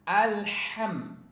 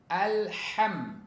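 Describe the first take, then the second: No difference in how they are said.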